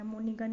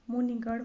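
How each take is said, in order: First: मुनिगण ending in dental n; wrong pronunciation. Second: मुनिगण ending in retroflex ṛ-like ण; correct pronunciation. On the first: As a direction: close मुनिगण with a plain n. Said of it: "मुनिगण नहीं होता". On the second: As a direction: curl the tongue at the end of मुनिगण. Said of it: "मुनिगण होता है". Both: Shown as a demonstration.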